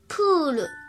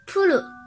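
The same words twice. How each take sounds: First: The first vowel is held long. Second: The first vowel is cut short. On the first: The speaker calls it right. "乌段加乌，延长音部分也是发音发乌。" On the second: The speaker calls it wrong. "延长音没念好的话就会变成"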